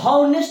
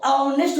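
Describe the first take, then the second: First: The word starts with a clear h sound. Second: The word starts with a vowel, no h sound. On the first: The speaker calls it wrong. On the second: The speaker calls it right.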